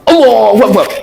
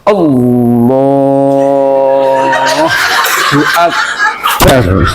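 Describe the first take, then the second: First: It is said with a Japanese accent. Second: It has an Indonesian accent, long and drawn out. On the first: "Orang Jepang ya" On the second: "Orang Indonesia ... logatnya yang beda. Suwi"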